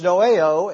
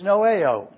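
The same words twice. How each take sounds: First: Noeo said slowly as no-eh-oh with a rising close; Greek word noeo. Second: Noeo said slowly as no-eh-oh with a falling close; Greek word noeo. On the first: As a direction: draw out noeo in three slow parts, lifting at the end. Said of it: "the next word, which is". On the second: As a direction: spell out noeo slowly in three parts, falling at the end. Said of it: "we have the word think, which is". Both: Shown as a demonstration.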